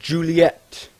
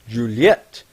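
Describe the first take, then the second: First: The name is said the American way. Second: The name is said the French way.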